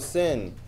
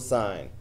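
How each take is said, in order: First: The vowel is short, like in 'sit'. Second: The vowel is long, like in 'sign'. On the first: The speaker calls it wrong. "don't say, oh, sin" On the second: The speaker calls it right. "It's still sine"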